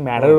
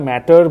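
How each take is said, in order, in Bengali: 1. মাঝখানের t শব্দটা গিলে ফেলা হয়েছে। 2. মাঝখানের t শব্দটা স্পষ্ট। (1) "বলছি না" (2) "এই যে আমি ম্যাটারটা ম্যাটার বলতে পারছি"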